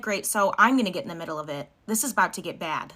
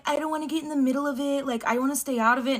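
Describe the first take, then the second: First: Mildly defiant, back down in your own pitch; lightly acted comeback, determined to step in; defiant retort. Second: Lightly voiced boyfriend, pitched higher; reluctant boyfriend. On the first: Girlfriend answering her boyfriend's refusal, mildly defiant retort. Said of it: "And I'm like". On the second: Boyfriend staying out of his girlfriend's argument, lightly mimicked. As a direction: imitate the boyfriend backing away, a higher voice. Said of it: "Boyfriend's like".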